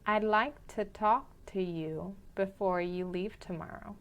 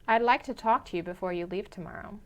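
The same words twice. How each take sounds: First: It is spoken a little more slowly than normal. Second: It is spoken at a normal conversational speed. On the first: "the second time a little slower" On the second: "the first time at a normal pace"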